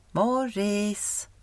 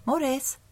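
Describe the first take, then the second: First: Second call, not as high; calling again, softer. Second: Calling out. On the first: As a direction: call once more, less urgent. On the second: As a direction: call his name from afar. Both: Acted. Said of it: "någon som ropade".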